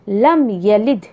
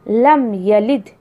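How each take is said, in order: First: The vowel after the y is kept short. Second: The vowel after the y is kept short.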